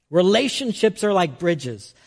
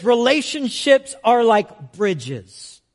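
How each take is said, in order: First: Said in the usual way. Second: Slow, deliberate proverb; slow quote. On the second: Retold or imitated. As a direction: read the saying slowly. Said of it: "it says".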